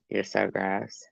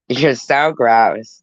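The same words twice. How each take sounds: First: Soft, slow tailing-off disgust; hushed, drawn-out revulsion; quiet disgust. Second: Slow, drawn-out disgust; full-voiced, lingering disgust; emphatic disgust. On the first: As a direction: let the disgust sink to an undertone. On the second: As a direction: stretch out the revulsion, firmly. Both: Real, not acted. Repeated teasing disgust, fading.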